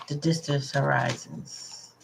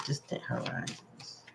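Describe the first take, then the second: First: Said in the usual way. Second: A hushed echo, barely there; whispered. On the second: Real, not acted. Reader echoes the card phrase to herself, whispered. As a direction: whisper the words to yourself.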